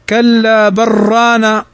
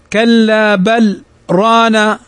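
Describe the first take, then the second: First: 'Bal' runs straight into 'rana', merging the sounds. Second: A brief stop follows 'bal' before 'rana'. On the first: This follows the other reading traditions. "وأما غيره فإنه يوصل ويدغمها" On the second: This follows the reading tradition the speaker uses. "حفص فإنه يقف"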